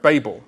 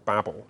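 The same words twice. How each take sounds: First: It is said the way across the Atlantic. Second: It is said the way on this side.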